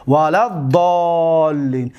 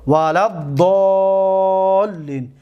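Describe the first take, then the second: First: ولد ضالین said slowly, د joined straight onto the ض; slow demonstration. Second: ولا الضالین recited very slowly, no alif sounded, لّ held long; slow recitation. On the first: Teacher shows how the alif is skipped, slow demo. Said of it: "ببینید لد". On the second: Teacher shows students the dropped alif, slow recitation. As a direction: draw out ولا الضالین like Quran reading. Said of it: "دقت بتید شما". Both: Shown as a demonstration.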